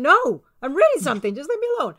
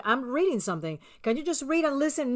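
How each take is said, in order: First: Louder, snappier repeat; second answer, losing patience with him; irritated brush-off. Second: Calm, slightly softer mock reply; first calm answer to a nagging husband; patient excuse. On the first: Retold or imitated. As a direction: push him away with impatience. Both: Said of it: "I'm going".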